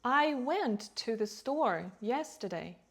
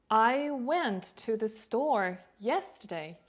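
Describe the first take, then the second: First: "went", "store" and "yesterday" stronger and longer; rhythmic stress, with "to the" kept light; natural sentence stress. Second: Slow, even weight on "I went to the store yesterday"; "I went to the store yesterday" said slowly, word by word; every word stressed. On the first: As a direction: lean on the key words "went", "store", "yesterday". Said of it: "some words are stronger, longer, clearer". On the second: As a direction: give each word of "I went to the store yesterday" its own beat. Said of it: "We don't stress every word equally". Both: Shown as a demonstration.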